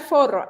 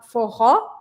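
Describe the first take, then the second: First: It is said with a Spanish pronunciation. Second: It is said with a Portuguese pronunciation. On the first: It names a condom. The speaker calls it wrong. "Decía así, me gusta bailar forro" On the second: It names a Brazilian music style. The speaker calls it right. "en portugués este tipo de música se llama forró"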